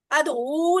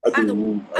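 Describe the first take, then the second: First: ادعو with an overlong final "oo"; wrongly lengthened. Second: Said in the usual way. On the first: Shown as a demonstration. Teacher warning students against lengthening it, ادعو with the ending stretched out. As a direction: drag out the last vowel of ادعو. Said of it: "ادعو نہیں کہنا". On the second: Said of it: "اب اس کو لمبا نہیں کرنا".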